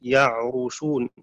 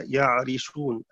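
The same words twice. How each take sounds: First: يعرشون with a rounded u on the r, ya'rushūn, slowly; يعرشون read ya'rushūn, damma on the ra; ya'rushun with damma. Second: يعرشون with a front i on the r, ya'rishūn; يعرشون read ya'rishūn, kasra on the ra; ya'rishun with kasra. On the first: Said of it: "بضم الراء". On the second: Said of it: "بكسرها". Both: Shown as a demonstration.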